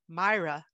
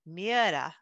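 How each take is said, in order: First: The name sounds like 'My-ra'. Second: The name sounds like 'Mee-era'. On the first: This is how people in the UK say it. "In the United Kingdom, I've listened to people pronounce it" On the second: This is how Scandinavians say it. "my Scandinavian friends, they've said it's pronounced"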